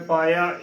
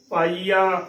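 First: ਪਾਇਆ in two syllables, paa-ya; wrong pronunciation. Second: ਪਾਈਆ in three syllables with long ee; correct pronunciation. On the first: Teacher recapping the mistake, ਪਾਇਆ as paa-ya. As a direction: slide through ਪਾਇਆ with a y glide. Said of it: "ਇਸ ਦਾ ਗਲਤ ਉਚਾਰਨ ਹੋਵੇਗਾ". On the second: Teacher recapping the right reading, ਪਾਈਆ with long ee. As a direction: say ਪਾਈਆ as paa-ee-aa. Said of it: "ਇਸ ਦਾ ਸਹੀ ਉਚਾਰਨ ਹੈ". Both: Shown as a demonstration.

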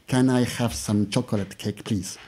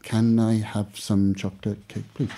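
First: Said in the usual way. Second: Slow, careful English accent read; English accent demo. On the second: Shown as a demonstration. Teacher showing the student an English accent, slow. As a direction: model the line in an English accent. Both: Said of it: "you just sound incredibly English".

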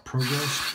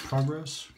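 First: "Progress" with a long o, PROH-gress; long-o pronunciation. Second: "Progress" with an open ah, PRAH-gress; short-o pronunciation. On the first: Shaver weighing a razor purchase, PROH-gress with long o. Tries two pronunciations of product name. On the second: Shaver second-guessing the razor's name, PRAH-gress with open ah. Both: Shown as a demonstration.

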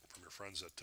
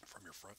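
First: Said in the usual way. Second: Hiccuping mid-word; hiccups. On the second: Real, not acted. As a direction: cut off by a hiccup. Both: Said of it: "I've got the hiccups".

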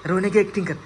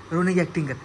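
Both takes have the same delivery.

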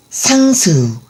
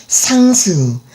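Both takes have the same delivery.

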